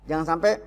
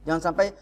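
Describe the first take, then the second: No difference in how they are said.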